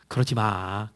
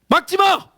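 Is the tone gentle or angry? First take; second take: gentle; angry. First: It is said softly and gently. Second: It is shouted angrily.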